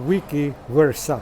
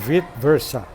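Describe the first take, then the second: First: The first word sounds like 'wee-kee'. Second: The first word sounds like 'veet'. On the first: This is the original Latin way of saying it. "ang pag-pronounce po nito nila is wiki versa" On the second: This is a later way of saying it. "and latter pronounce that vit versa"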